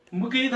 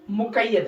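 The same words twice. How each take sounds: First: मुकीद in two syllables with long ee; common mispronunciation. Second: मुक़य्यद with a doubled y, mu-qay-yad; correct pronunciation. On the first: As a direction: say मुकीद as mu-keed. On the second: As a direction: press the य in मुक़य्यद. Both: Shown as a demonstration. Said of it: "असल इसका तलफ़ुज़ जो है".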